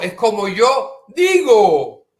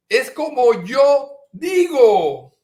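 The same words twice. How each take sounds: First: Slow loud insistence; insisting. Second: Higher, louder insistence on YO; insisting harder. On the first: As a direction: hammer the point home. Repeated insistence, building. (insistencia lenta y fuerte) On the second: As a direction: push the word yo up hard. (insistencia más aguda, recalcando yo) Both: Retold or imitated.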